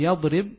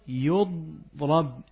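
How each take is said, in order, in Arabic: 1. الحركة الأولى فتحة، والثانية كسرة. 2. الحركة الأولى ضمة، والثانية فتحة. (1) "فتقولين في يضرب" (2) "ضم أوله، وما قبل آخره مفتوح"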